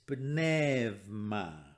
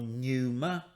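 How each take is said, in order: First: The middle sounds like 'ev' with a v consonant. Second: The middle sounds like 'eu' with a vowel glide. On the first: The speaker calls it right. "make an ev sound" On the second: The speaker calls it wrong. "So it's not pneuma"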